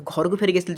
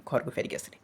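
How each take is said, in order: First: Said in the usual way. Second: "ଘରକୁ ଫେରିକି ଆସିଲି" dropped low and very soft; falling statement ending. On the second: Shown as a demonstration. Teacher showing a finished thought, "ଘରକୁ ଫେରିକି ଆସିଲି" sinking to a hush. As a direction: let "ଘରକୁ ଫେରିକି ଆସିଲି" fade away as the thought closes. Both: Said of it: "ସେଇଟା ମୁଁ slow କରିଥିଲି".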